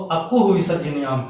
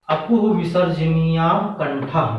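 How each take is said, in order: First: Said in the usual way. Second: Sutra recited slowly, each word drawn out. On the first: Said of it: "तो". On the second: Shown as a demonstration. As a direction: chant the rule slowly for students. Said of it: "जैसे पहला सूत्र है". (सूत्र को धीरे-धीरे रटवाने के अंदाज़ में)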